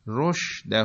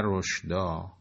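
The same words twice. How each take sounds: First: رشده said as roshdah, ending in -ah; correct reading. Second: رشدا said as roshdan, ending in -an; contrasted wrong form. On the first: Teacher points out the Quran says رشده, slow careful roshdah. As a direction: stress رشده slowly as roshdah, not roshdan. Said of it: "نه رشدا". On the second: Teacher contrasts with the form not used, slow roshdan. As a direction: give رشدا as roshdan, slowly. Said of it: "رشده گفته". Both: Shown as a demonstration.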